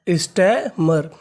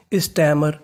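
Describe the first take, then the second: First: stammer stretched out very slowly; slow syllable by syllable. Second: Said in the usual way. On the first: Shown as a demonstration. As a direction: model stammer slowly for the class. (Stammer को बहुत धीरे खींचकर बोलें) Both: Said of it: "तो पूरी meaning".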